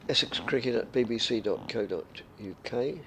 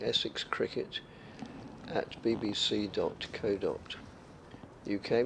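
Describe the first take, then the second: First: It is said at normal speed. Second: It is said more slowly.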